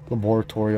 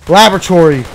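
First: It is said with a British pronunciation. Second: It is said with an American pronunciation.

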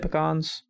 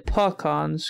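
First: The first syllable has a clear 'ee' vowel. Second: The first syllable has a reduced 'uh' vowel. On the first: This is how the speaker says it. "I say pecans" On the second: This is how some other people say it. "some people imagine it's like a P-U-H sound instead of a P-E"

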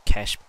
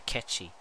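First: The word is said as one syllable, cash. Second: The word is said as two syllables, catchy. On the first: The speaker calls it right. "I think it's cash box" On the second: The speaker calls it wrong. "I used to say catchy"

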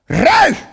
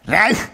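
First: The shout is very loud and forceful. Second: The shout is relaxed and moderate in volume. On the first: "millä lailla huudetaan oikein kovasti" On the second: "miltä tuntuu huutaa sillä lailla rennosti"

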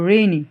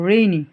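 Both takes have the same delivery.

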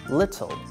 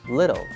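First: The T is a clear, crisp T sound. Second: The T is a soft flap, close to an L sound. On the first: "in British English, it's the clear T sound like T" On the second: "In American English, the T sound is the flat sound like L"

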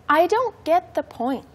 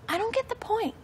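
First: The sentence is spoken slowly. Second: The sentence is spoken faster. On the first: "The first time slow" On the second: "One more time, a little bit faster"

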